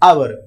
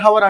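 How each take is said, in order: First: The word begins directly with a vowel. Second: The word begins with an h sound. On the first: The speaker calls it right. "H అనేది silent కాబట్టి అవర్ అన్నప్పుడు" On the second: The speaker calls it wrong. "హవర్ హవర్ అనుకుంటూ ఉంటారండి"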